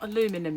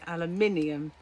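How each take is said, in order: First: It ends without the extra sound: '-inum'. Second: It ends with the extra 'ee' sound: '-inium'. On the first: The speaker calls it wrong. "It's not aluminum" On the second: The speaker calls it right. "It has got an I in it"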